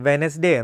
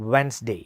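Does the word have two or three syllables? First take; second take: three; two. First: The word is said with three syllables. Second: The word is said with two syllables. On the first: The speaker calls it wrong. "നമ്മളിത് മിസ്പ്രൊനൗൺസ് ചെയ്യുന്നത് വെനസ്ഡേ എന്നോ" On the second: The speaker calls it right. "Actually this is pronounced as വെൻസ്ഡേ"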